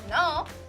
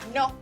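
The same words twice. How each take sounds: First: The vowel is long and glides while sounding. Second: The vowel is short and stays the same. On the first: "in English, it can sometimes sound like no" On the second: "In Spanish, we say no"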